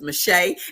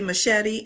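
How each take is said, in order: First: The surname is said in a shorter form. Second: The surname sounds like the word machete. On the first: This is the name's actual pronunciation. The speaker calls it right. "I said it's Mache" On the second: This is how most people say the name. The speaker calls it wrong. "most people say Shelly Machete"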